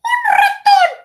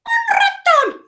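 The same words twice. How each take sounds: First: Very high, loud squeak; super squeaky and loud; squeaky mouse shout. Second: Very high, slow squeak with a rising end; super squeaky voice; squeaky mouse voice. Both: Shown as a demonstration. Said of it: "Super squeaky voice".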